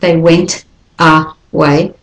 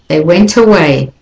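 First: The t in went is separated from away. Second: The t in went runs into away. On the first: The speaker calls it wrong. "Not they went away" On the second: The speaker calls it right. "you can do a linking between the T at the end of went to the schwa at the beginning of away"

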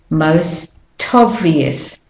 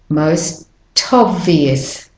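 The two takes are said the same way.

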